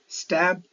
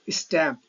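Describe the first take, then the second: First: It begins directly with the s sound. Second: An e vowel is added before the s.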